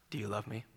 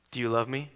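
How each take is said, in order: First: Hushed, breathy whisper of the question; softly whispered plea. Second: Said in the usual way. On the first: Retold or imitated. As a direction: breathe it out barely voiced. Jesus asking Peter, retold.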